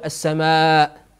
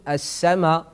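First: "السماء" closed with a glottal stop; final hamza kept. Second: "السماء" ending on an open aa, no glottal stop; final hamza dropped. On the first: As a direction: say "السماء" with the long aa ending in hamza. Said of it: "لا يقول السماء". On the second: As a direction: leave the hamza off the end of "السماء". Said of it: "يقول السماء". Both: Shown as a demonstration.

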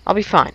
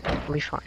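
First: Said in the usual way. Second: Unvoiced whisper to himself; whispered self-reassurance. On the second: Real, not acted. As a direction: whisper it to calm yourself.

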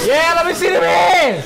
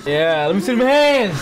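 First: Much higher, louder hype yell; full shout. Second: Hyped-up call to the crowd; rally the room for the team; hype call. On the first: Friend cheering the Lions walkout, full hype yell. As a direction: belt it out to the whole room. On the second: Friend cheering the Lions walkout, hyped call. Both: Real, not acted.

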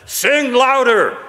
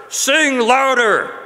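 Both takes have the same delivery.

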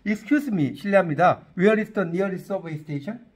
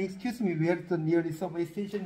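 First: Slow English demo. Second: Slow English quote. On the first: Shown as a demonstration. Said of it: "이렇게 물어봐". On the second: Retold or imitated. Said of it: "라고 물은 적이 있다".

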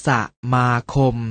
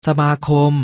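First: สะมาคม split into สะ, มา, คม; short สะ, gap, then มา and คม; syllable by syllable. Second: Said in the usual way. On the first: Shown as a demonstration. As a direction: sound out สะมาคม beat by beat. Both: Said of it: "อ่านว่า".

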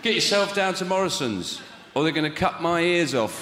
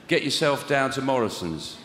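First: Higher, pleading ad line under threat; a touch of fear in the voice-over; hostage ad read. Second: Joyless voice-over read; grim, hostage-like ad line; reluctant ad read. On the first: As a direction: read Get yourself down to Morrison's like a captive. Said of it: "held hostage". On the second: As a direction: read the Morrison's ad as if forced. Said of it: "Sounds like I've been held hostage". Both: Shown as a demonstration.

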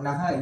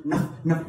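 First: Naha with a full second syllable HA; wrong pronunciation. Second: Nah as one short syllable with a light H; subtle H. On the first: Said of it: "you know, it's not Naha". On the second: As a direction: let Nah end on a faint breath. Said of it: "It is a very subtle". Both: Shown as a demonstration.

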